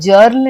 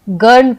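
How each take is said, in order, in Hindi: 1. इस शब्द की शुरुआत j ध्वनि से होती है। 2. इस शब्द की शुरुआत कठोर g ध्वनि से होती है। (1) "हम इसे जर्ल नहीं पढ़ते हैं" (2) "हम इसे गर्ल पढ़ते हैं"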